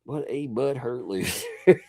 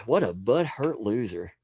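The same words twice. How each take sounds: First: Slow, laughing mock insult with butthurt drawn out; laughing repeat. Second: Said in the usual way. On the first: Shown as a demonstration. Streamer repeating his insult slowly while laughing. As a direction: savor the word butthurt through a laugh.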